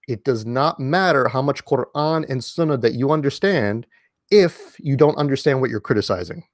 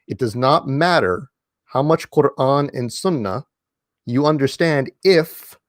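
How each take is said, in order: First: Said in the usual way. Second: Slow, with the final "if" drawn out and lifted; stress on if. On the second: Shown as a demonstration. Stressing "if" so the audience won't quote him out of context. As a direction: lean on "if" and let it hang with a rising tune. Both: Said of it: "I'm emphasizing the word if here".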